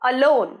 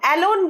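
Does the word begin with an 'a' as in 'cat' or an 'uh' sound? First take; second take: uh; cat 'a'. First: The first vowel is a short 'uh' sound. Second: The first vowel sounds like the 'a' in cat. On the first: The speaker calls it right. "অ হয়" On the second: The speaker calls it wrong. "বলবে না, এটার pronunciation কিন্তু এ হয় না"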